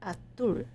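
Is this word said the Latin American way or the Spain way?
Spain. It is said the Spain way, slightly different.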